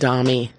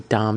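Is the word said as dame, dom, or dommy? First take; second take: dommy; dame. First: It is two syllables ending in 'ee'. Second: It is one syllable with an 'ay' vowel. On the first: "It rhymes with mommy" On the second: "I've heard people say dame"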